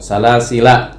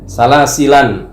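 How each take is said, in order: First: The word ends in a plain vowel. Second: The word ends with an added n sound. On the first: This is the common reading without nunation. "Nggak ada tanwin" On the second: This is the alternative reading with nunation.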